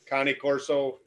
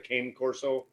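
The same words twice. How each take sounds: First: Said with the original, Italian-style pronunciation. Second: Said with the common, English-style pronunciation. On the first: This is how the name is properly pronounced. "is the correct pronunciation" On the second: This is how most people say the name. "everybody knows it as a cane corso"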